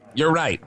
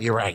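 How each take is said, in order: First: It is said in a put-on character voice. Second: It is said in his normal voice.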